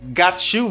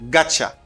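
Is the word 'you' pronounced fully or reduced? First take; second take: full; reduced. First: The word 'you' is pronounced fully and separately. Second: The words blend into a reduced 'gotcha' sound. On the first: "si tu veux vin plus informel" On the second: "got you vin gotcha"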